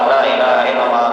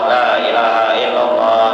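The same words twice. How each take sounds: First: The phrase is recited quickly. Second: The phrase is recited a little faster. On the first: "tiga puluh tiga putaran ketiga beraju" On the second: "tiga puluh tiga kedua laju sedikit"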